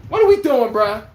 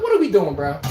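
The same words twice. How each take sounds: First: Exasperated repeat. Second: Said in the usual way. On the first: Retold or imitated. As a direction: press the question harder, fed up.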